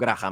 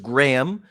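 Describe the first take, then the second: First: The name is said with Spanish sounds. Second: The name is said with English sounds. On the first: "yo me conformo con Graham" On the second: "pronunciación correcta es Graham"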